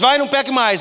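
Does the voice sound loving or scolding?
scolding. It is said in a harsh, scolding tone. The speaker seems to be rebuking the listener. The speaker calls it wrong. "Parece que está brigando"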